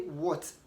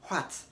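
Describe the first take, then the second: First: It is said without an h sound. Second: It is said with an h sound. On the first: The speaker calls it right. "Say what. Ignore the pronunciation of H" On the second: The speaker calls it wrong. "you don't say what"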